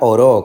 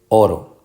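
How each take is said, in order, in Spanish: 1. El acento está en la última sílaba. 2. El acento está en la primera sílaba. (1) "como cuando uno ora en el pasado, tuviera una tilde aquí" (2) "Así que es oro. ... por eso es una palabra llana"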